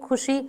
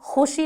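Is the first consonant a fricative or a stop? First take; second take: stop; fricative. First: The first consonant is an aspirated k stop. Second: The first consonant is a rasping throat fricative. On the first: "बेनुक्तादार" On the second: "ना बोल करके"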